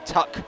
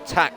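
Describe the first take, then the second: First: The vowel rhymes with 'duck'. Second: The vowel rhymes with 'back'. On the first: This is how some other people say it. "Some people say Tuck" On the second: This is how the speaker has always said it. "I've always said Tack"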